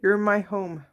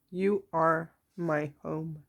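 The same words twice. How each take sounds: First: Said in the usual way. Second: Slow, soft and tender; tender repeat. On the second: Shown as a demonstration. Reader to viewers, repeating the message slowly and softly. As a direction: let it land gently, like a promise.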